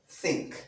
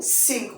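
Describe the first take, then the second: First: The word begins with a th sound. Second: The word begins with an s sound. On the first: The speaker calls it right. "the correct pronunciation is think" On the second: The speaker calls it wrong. "sink with s"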